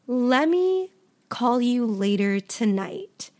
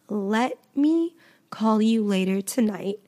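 First: Let and me are glued into lemme. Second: Let and me are said as two full words. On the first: "I'll say, lemme" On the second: "Instead of saying"

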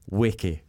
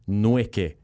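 First: The name starts without any N sound. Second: The name starts with an audible N sound. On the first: The speaker calls it right. "But it's Weke" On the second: The speaker calls it wrong. "people were calling you Nweke"

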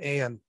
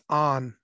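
First: The vowel sounds like the one in 'Anne'. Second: The vowel sounds like the one in 'on'. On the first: The speaker calls it wrong. "her best friend's name is not Anne" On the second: The speaker calls it right. "It's On"

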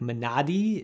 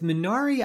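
First: The word is said closer to the Korean pronunciation. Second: The word is said with an American pronunciation. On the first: The speaker calls it right. "I think is closer to the way that you would pronounce it" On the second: The speaker calls it wrong. "my American tongue is just not going to make that work"

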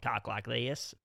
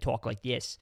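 First: It is spoken in a Deep South accent. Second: It is spoken in a Boston accent. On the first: "people from like the very deep South" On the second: "Boston where they talk like this"

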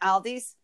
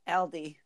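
First: The name ends with an added s sound. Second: The name ends without an s sound. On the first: "we add S to store names" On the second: "It's Aldi"

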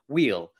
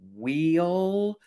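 First: The vowel is short and not drawn out. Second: The vowel is long and drawn out, Southern-sounding. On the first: The speaker calls it right. "So I'm trying to wheel" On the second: The speaker calls it wrong. "not letting my Alabama come out there, because I used to always say, wheel, and you sort of really draw that out"

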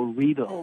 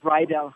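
First: It is said to rhyme with needle. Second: It is said like the school name, not rhyming with needle. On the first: The speaker calls it right. "it rhymes with needle" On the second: The speaker calls it wrong. "Not Riedel High"

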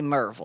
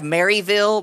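First: It is said in two syllables, Mer-ville. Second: It is said in three syllables, Mary-ville. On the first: "but we say Merville" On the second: "We have Maryville"

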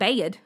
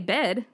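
First: The word is said in a country accent. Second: The word is said in a plain accent. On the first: This is how a toddler has started saying it. "Real, like, country" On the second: This is how the speaker normally says it. "I say bed"

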